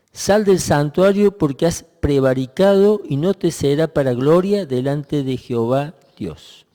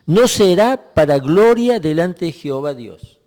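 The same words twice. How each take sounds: First: Said in the usual way. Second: "No" marcado y más fuerte, frase enfática; stress on NO. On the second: Shown as a demonstration. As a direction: golpea la palabra "No" para subrayarla. (énfasis en "No será para gloria") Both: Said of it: "Fíjense las últimas palabras".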